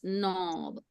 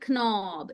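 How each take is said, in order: First: The initial k sound is silent. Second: The initial k sound is pronounced. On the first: The speaker calls it right. "It's knob" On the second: The speaker calls it wrong. "Don't say knob"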